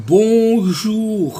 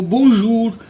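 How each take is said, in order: First: Bonjour slow with a French back r; native French r. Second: Bonjour with a plain Hindi r, louder; simple r. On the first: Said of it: "अब मैंने र बोला". (bonjour French र के साथ धीरे) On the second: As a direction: say bonjour with an easy र. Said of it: "आप इसको र बोल दो". (bonjour सीधे र के साथ) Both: Shown as a demonstration.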